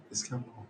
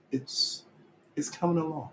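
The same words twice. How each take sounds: First: Much softer, flat "coming along" under the breath; muttered repeat. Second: Higher, pleading "coming along"; defensive insistence. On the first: Reassuring himself after defending the band, in a soft mutter. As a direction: repeat it quietly to yourself. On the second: Defending the band's progress to viewers, pleading higher. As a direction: insist it's getting better, pitch up. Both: Acted. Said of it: "Can I just say in my defense".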